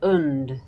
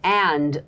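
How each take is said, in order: First: The word is said in a reduced weak form. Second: The word is said in its full form.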